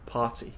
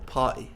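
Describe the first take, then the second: First: The T sound is fully pronounced. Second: The T sound is dropped entirely. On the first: It is the proper way of speaking. "proper English" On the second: It is a very casual way of speaking. "British people might drop the T altogether"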